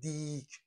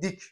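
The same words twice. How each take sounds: First: The vowel is drawn out long. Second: The vowel is short and quick. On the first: The speaker calls it wrong. "ما نمیگیم دیک" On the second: The speaker calls it right. "میگیم دیک"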